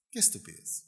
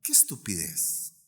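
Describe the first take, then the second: First: Qué estupidez dropped low and soft; quiet repeat. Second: Said in the usual way. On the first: Shown as a demonstration. Pastor repeats his judgement on envy, quietly. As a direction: let qué estupidez fall away, almost to himself.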